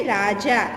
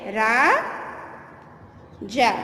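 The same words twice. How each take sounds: First: Said in the usual way. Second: Dictation drawl. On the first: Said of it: "क्या लिखोगे?". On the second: Shown as a demonstration. Teacher dictates Raja to pupils, very slowly stretched. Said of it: "तो लिखोगे".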